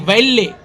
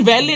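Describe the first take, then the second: First: It has a held 'l' and ends in 'ay'. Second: It ends in a long 'ee' sound. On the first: The speaker calls it right. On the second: The speaker calls it wrong. "अर्जन वैली नहीं"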